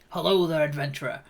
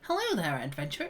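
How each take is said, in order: First: It is said in a deeper, bigger voice. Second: It is said in a lighter, smaller voice.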